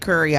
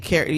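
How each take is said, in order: First: The first vowel sounds like the one in 'cup'. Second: The first vowel sounds like the one in 'cat'. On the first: This is how locals in the city say it. "we say curry out" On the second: This is how people outside the city say it. "We found that other places don't say carry"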